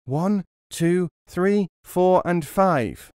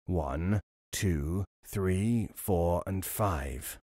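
First: Higher and louder count from hiding; shouted high count; loud echo. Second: Low, soft count, slowing at the end; low drawn-out count; robber counting. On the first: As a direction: chime in as loud as possible. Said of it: "as loud as he was able". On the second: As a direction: count again under his breath. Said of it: "the robber beginning again". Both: A narrator's reading.

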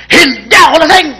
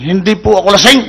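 First: Higher, bolder "Hindi ako lasing!"; defiant denial. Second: Said in the usual way. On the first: Acted. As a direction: push back at the cop. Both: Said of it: "Mamatapang ah".

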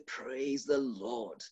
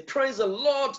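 First: "Praise the Lord" said low, slow and soft. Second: High, bright "Praise the Lord". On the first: Preacher contrasting a low, slow, soft praise. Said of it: "and I can say". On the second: Preacher demonstrating a high, lifted praise. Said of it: "I can be high, I can say". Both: Shown as a demonstration.

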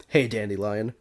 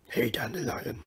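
First: Said in the usual way. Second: Put-on gruff-hero greeting, kept restrained; Henry Cavill impression. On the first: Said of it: "I'm not gonna do that". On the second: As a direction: try the Witcher in a movie star's voice. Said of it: "try to do this like Henry Cavill".

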